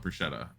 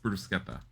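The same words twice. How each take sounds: First: The middle consonant is a soft sound, not k. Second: The middle consonant is a hard k sound. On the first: The speaker calls it wrong. "I used to call it" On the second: The speaker calls it right. "Anything with a C C is a k sound in Italian"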